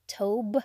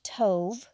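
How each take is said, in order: First: The word ends with a B sound. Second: The word ends with a V sound. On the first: "the V is sometimes pronounced as a B, so they might have the word tob" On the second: "Hebrew word is tov, T-O-V"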